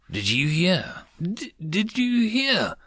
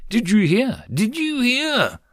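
First: High, breathless rabbit cry; excited rabbit. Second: High, panting panicked cry; panicked mouse. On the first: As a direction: call out eagerly like a small rabbit. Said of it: "the rabbit cried out". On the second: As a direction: squeak it out in panic. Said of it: "The mouse cried out". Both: A narrator's reading.

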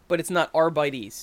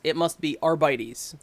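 First: "not" hit before "arbites"; "arbites" said ar-BYE-teez, denied; stress on not. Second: "must" leaned on; "must be arbites" with "must" stressed. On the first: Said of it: "no one's ever used an E S". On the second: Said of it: "being that it's Astartes and Custodes". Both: Shown as a demonstration.

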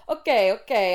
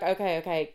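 First: Loud mock-Italian delivery; Italian accent. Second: Said in the usual way. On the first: Pharmacist taking the sample, in a mock Italian accent. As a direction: put on a bad Italian accent. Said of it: "trying to do an Italian accent".

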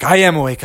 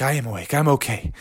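First: Said in the usual way. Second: A groggy mumble from the ground; hurt bear reassuring his friends faintly; weak murmur. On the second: Acted. Dazed Bubby answers friends.

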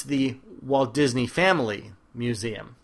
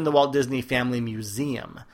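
First: Slow, "Walt Disney Family" grouped as one unit, then "Museum"; slowly bind "Walt Disney Family" together, set "Museum" apart; stress on Walt Disney Family. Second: "Museum" leaned on at the end; stress on Museum. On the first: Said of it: "if you understand what I'm trying to say". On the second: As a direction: run through "Walt Disney Family", then land on "Museum". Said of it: "putting the old emphasis on the wrong syllable". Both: Shown as a demonstration.

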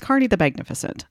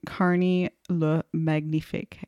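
First: Said in the usual way. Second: Halting try at a French accent; hesitant, badly attempted French pronunciation. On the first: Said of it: "I can't say it". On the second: Shown as a demonstration. Host stumbling over a French nickname, attempted French accent. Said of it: "I can't do a French accent".

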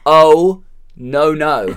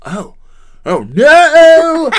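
First: Louder, straight oh no; just deliver the line; director's plain take. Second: Small oh, then a huge high yelled oh no; over-the-top Nick Cage. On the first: The director showing Nick how to say it. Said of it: "we just want you to deliver the line". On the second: Nick Cage overacting the line for the director. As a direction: blow the line up into a wild scream. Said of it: "for Nick Cage, it would be". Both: Retold or imitated.

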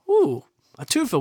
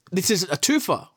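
First: Much higher, gleeful ooh a twofer; delighted ooh. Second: Said in the usual way. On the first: Real, not acted. Host reading a double bear attack, thrilled and much higher. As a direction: savor the find with a high thrilled ooh.

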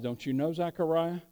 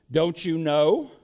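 First: Softer, gentle "Don't you know, Zechariah?" with a lift on "know"; hushed surprised question; quiet surprise. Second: Slow, rising "Don't you know?" in mild surprise; a slow lift on "know" as if amazed he doesn't know; understated surprised question. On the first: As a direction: drop the voice, almost tender disbelief. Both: Acted. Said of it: "and he's surprised".

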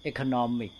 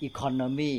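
First: Economic with the stress moved to NOM; eco-NOM-ic, said as a stress example; contrastive stress. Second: Economy said with its own stress, set against economic; contrastive stress. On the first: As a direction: hit the third syllable of economic. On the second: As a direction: show where the stress falls in economy. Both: Shown as a demonstration. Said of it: "นี่เน้นคนละที่แหละ".

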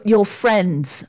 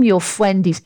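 First: Said in the usual way. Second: "fwendies" with w for r; babyish mispronunciation. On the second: Acted. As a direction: say "fwendies" in baby talk, ending in -ies. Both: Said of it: "your, your friends".

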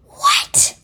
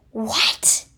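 First: Very high, loud shrieked "What?"; panicked scream. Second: Panicked. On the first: Squirrel shrieks "What?" in panic at the fight. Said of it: "panicked Mister Squirrel". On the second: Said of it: "panicked Mister Rat". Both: Acted.

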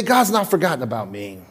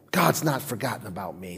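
First: Said in the usual way. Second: Low, hushed "God's not forgotten about me"; soft affirmation. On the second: Shown as a demonstration. Preacher modelling the line quietly for the congregation. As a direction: speak it softly as a truth.

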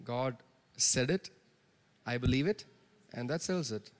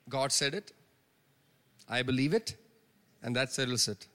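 First: Preacher repeats phrase softly to congregation; quiet repeat of the saying. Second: Preacher gives the church's phrase; quoted saying. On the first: Quiet spaced recital. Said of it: "That's it". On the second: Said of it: "we use that phrase often". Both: Shown as a demonstration.

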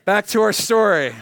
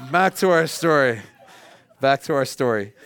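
First: Calling the room back to the story; louder, hammed-up return to the story. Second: Repeating it through a laugh; chuckling; amused repeat. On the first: Shown as a demonstration. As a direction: announce it loudly. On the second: Real, not acted.

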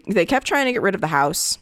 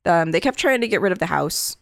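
First: Hoarse, voice failing; voice giving out. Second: Said in the usual way. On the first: Real, not acted. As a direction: voice giving out mid-sentence. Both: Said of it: "I'm losing my, my voice here".

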